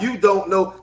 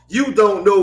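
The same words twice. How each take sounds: First: The words are said fully and slowly. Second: The words are run together quickly. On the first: This is how outsiders talk. The speaker calls it wrong. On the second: This is how the speaker's community talks. The speaker calls it right.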